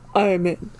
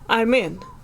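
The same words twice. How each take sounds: First: It is said in a put-on hacker voice. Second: It is said in a normal voice.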